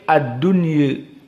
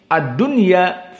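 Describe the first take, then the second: First: The final vowel is tilted slightly toward 'e'. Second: The final vowel is a plain open 'a'. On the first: This is the reading of another reciter tradition. "Qiraah Al-Basri" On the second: This is the reading of one reciter tradition. "qiraah Hafsan Asim ad-dunya fathah"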